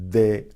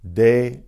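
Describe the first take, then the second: First: The d is softer, with the tongue touching the teeth. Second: The d is made with the tongue on the gums. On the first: "in Spanish" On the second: "in English"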